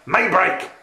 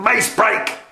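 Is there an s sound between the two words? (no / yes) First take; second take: no; yes. First: No s sound comes between the two words. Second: An s sound joins the two words. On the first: The speaker calls it right. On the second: The speaker calls it wrong. "Not mace break"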